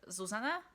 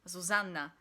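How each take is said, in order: First: The n sound is short, said once. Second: The n sound is held long, doubled. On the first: This is the Slovak way to say it. "in Slovakia, we don't have two N's, so I say Zuzana" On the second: This is the Polish way to say it. "with Polish pronunciation, it's supposed to be Zuzanna"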